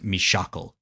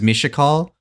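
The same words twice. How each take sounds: First: The stress falls on the middle syllable shak. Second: The middle syllable is not the stressed one. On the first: This is the official pronunciation of the name. The speaker calls it right. "the the shock is the uh, is the is the the emphasized syllable there" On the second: This is how the name was imagined privately. The speaker calls it wrong. "for me it was always Mishakal"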